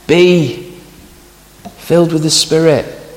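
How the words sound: The stress falls on the word be. Believers should be what they already are. The speaker calls it right. "The emphasis is on the word be"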